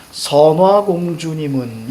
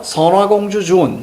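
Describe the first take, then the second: First: 선화공주님은 read as natural Korean, ending 님은; native Korean reading. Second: 선화공주 주운 read character by character by sound, ending 주운; Sino-Korean character reading. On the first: Teacher shows students how hyangchal is read, native Korean reading. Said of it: "우리말로 읽어야 되는 거예요". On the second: Teacher shows students the literal character reading, Sino-Korean reading. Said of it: "그래서 지금은 어떻게 읽어요". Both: Shown as a demonstration.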